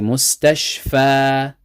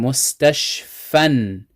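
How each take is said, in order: First: The word ends with a long a vowel. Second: The word ends with an n sound. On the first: The speaker stops reading at the word. "If we're stopping, ... we take off the tanween in pronunciation" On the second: The speaker continues reading past the word. "If we're continuing"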